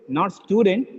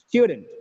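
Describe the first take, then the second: First: The stress is on the second syllable. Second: The stress is on the first syllable. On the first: The speaker calls it wrong. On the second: The speaker calls it right. "It is stew. Stew"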